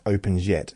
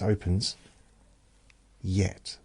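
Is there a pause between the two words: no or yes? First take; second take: no; yes. First: The two words run together without a pause. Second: There is a clear pause before the second word. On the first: The speaker calls it wrong. "it's not just opens yet" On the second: The speaker calls it right. "It's a pause"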